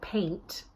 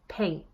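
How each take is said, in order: First: The final t is fully released. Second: The final t is glottalized. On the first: "instead of saying a word like paint" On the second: "I'm actually glottalizing that sound a little bit"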